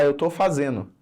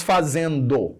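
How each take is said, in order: First: "fazendo" said colloquially as "fazeno"; dropped d. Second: "fazendo" with the d fully sounded; full pronunciation. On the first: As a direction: let the d in "fazendo" vanish, leaving "fazeno". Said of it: "Ó lá, morreu". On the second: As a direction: say "fazendo" slowly, every syllable complete. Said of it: "não fala mais fazendo". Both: Shown as a demonstration.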